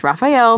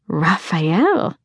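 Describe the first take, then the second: First: Said in the usual way. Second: Husky, lingering on the name, rising. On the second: A narrator's reading. Girl teasing her friend about the new guy, husky. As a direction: purr the name huskily as a question. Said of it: "said in a husky voice".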